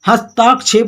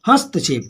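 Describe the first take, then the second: First: The vowel after 'hast' is a long 'aa'. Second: The vowel after 'hast' is a short 'a'. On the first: The speaker calls it wrong. "हस्ताक्षेप नहीं" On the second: The speaker calls it right. "हस्तक्षेप होता है"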